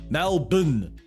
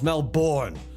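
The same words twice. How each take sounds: First: Melbourne is said the Australian way. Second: Melbourne is said the American way. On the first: The speaker calls it right. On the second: The speaker calls it wrong.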